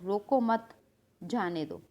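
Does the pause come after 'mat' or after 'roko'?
after mat. There is a pause right after mat. Do not stop him; let him go. "अब मैंने मत के बाद coma लगा दिया"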